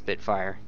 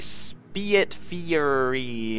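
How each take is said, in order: First: The name is pronounced in the ordinary way. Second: The name is pronounced in an unusual, distorted way. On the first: "I know it says Spitfire" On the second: "I intentionally said it in a weird way"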